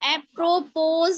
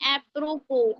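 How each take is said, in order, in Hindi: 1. शब्द का अंत एक सुनाई देने वाली z ध्वनि से होता है। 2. शब्द का अंत स्वर से होता है, s मौन है।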